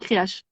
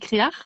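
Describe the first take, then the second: First: The word ends with a 'sh' sound. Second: The word ends with an 'r' sound. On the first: This is how it is said on Ouessant. "mais à Ouessant, Créache se dit Créache" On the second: This is how some other parts of Brittany say it. "Il y a certains lieux de Bretagne où Créache se dit Créar"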